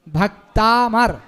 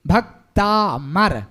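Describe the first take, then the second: First: भक्ता मर said slowly, stress on मर; correct joined. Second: भक्ता मर said as two separate words, slow; wrong split. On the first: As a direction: join भक्ता into मर with a held र. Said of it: "इस तरीके से बोलने पर ये शुद्ध है". (भक्तामर धीरे और जोड़कर, मर पर जोर) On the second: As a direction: stretch भक्ता then drop मर apart. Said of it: "भक्ता जो बोल रहे हैं ये गलत है". (भक्ता मर को अलग-अलग धीरे बोलना) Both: Shown as a demonstration.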